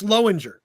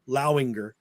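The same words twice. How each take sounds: First: The first syllable rhymes with low. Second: The first syllable rhymes with cow. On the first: This is how the speaker's side says it. "how do you say L O W, asshole? It's like low" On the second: This is how half the family says it. "how do you say C O W? Well, that's cow"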